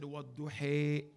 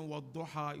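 First: "Wadduhi" with the final a turned to a drawn-out ee/ay; Warsh pronunciation. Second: Said in the usual way. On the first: Shown as a demonstration. Teacher showing the class a Warsh reading, final vowel of "Wadduhi" fronted. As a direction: end "Wadduhi" on a long, slow fronted vowel, not -ha. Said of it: "you said Wadduhi". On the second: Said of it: "instead of reciting Wadduha".

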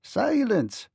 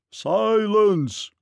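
First: High, small-voiced command without extra volume; little man's high-pitched hush order; small ferryman. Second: Great voice, high and drawn out; big booming command, stretched long; giant's roar. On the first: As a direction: order silence as a tiny man. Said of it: "said the small ferryman". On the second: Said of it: "roared a great voice". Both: A narrator's reading.

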